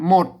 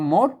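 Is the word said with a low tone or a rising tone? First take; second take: low; rising. First: The word is said with a low tone. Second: The word is said with a rising tone. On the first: This is the Standard Thai pronunciation. "ภาษาไทยเพิ่นออกเสียงเอกนะครับ เนี่ยหมดเสียงเอก" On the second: This is the Chiang Mai Tai Yuan pronunciation. "ไตยวนเชียงใหม่เห็นไหมเพิ่นออกเสียงจัตวา"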